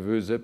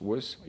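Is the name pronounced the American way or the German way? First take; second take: German; American. First: The name is said with a German pronunciation. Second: The name is said with an American pronunciation. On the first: "en Allemagne on dirait Woese peut-être" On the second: "je ne sais pas comment les Américains le prononcent"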